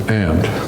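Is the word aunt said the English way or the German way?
English. Aunt is said with an English-style pronunciation. "If you're English, it's"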